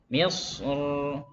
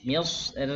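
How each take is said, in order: First: The r is pronounced heavy and full. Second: The r is pronounced light and thin. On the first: "Kalau waqaf tebal kita baca tebal ya"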